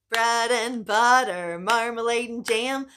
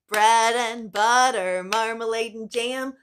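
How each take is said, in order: The two takes are said the same way.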